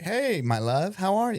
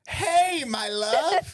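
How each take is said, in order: First: It sounds warm and relaxed. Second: It sounds strained, anger behind the sweetness.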